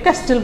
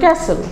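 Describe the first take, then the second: First: A 't' sound is heard in the middle. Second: No 't' sound is heard in the middle. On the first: The speaker calls it wrong. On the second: The speaker calls it right.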